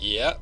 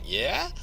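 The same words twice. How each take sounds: First: It sounds eager and willing. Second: It sounds surprised and questioning. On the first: The speaker happily agrees. "do you want to do that?" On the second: What was said is surprising. "somebody says something I think is surprising"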